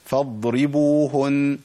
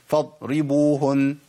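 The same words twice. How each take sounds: First: فاضربوهن slow, the ض flowing without a stop; correct daad. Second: فاضربوهن with the ض cut short like a stop; فاضربوهن, the sound of the daad chopped off; wrong clipped daad. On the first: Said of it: "ده الصواب". (نطق صحيح للضاد في فاضربوهن) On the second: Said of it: "ده ما ينفعش، أنا كده عملت شدة". (نطق خاطئ للضاد بقطع الصوت) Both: Shown as a demonstration.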